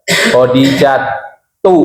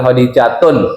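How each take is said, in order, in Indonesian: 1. Nama itu tidak diakhiri dengan bunyi n. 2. Nama itu diakhiri dengan bunyi n.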